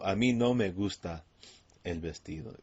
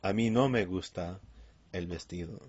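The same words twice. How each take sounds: First: "mí" stressed, louder start then falling; emphasis on mí. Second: "no" stressed, louder start then falling; emphasis on no. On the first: Man telling two ladies he dislikes the dress, stress on mí. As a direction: lean on "mí" to say not me. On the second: Man telling two ladies he dislikes the dress, stress on no. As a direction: punch the "no" against the others. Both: Shown as a demonstration. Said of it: "he's gonna emphasize that".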